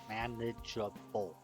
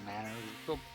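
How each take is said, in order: First: It is said clearly with four syllables. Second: It is squeezed into three syllables. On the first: The speaker calls it right. "Try to work on my articulation" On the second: The speaker calls it wrong. "I find myself trying to cut it from four syllables down to three"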